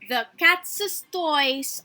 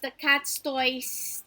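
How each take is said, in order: First: The s in cat's is long and doubled. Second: The s in cat's is short and single. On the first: It clearly shows the toys belong to the cat. The speaker calls it right. "it should have that double S sound" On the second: It sounds like a plain plural, not ownership. The speaker calls it wrong. "it doesn't sound possessive"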